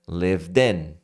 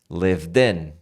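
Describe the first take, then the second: First: The two words run together as one. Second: The two words run together as one.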